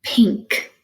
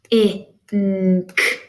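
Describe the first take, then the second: First: Said in the usual way. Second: P, I, N, K as isolated phonemes; chopped into sounds. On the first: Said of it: "Chop the word". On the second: Shown as a demonstration. Teacher chopping every sound in the word, separated phonemes. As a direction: chop it into P, I, N, K. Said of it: "chop every sound in the word".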